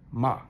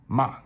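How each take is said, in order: The two takes are said the same way.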